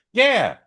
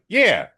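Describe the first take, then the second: First: Loud, very high eager yeah; a loud keen yes, pitched up; emphatic yeah. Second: Loud, high eager yeah; emphatic yeah. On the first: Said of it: "And I was like". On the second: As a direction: bark out a keen yes. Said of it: "And I'm like". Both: Retold or imitated.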